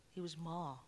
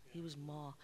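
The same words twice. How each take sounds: The two takes are said the same way.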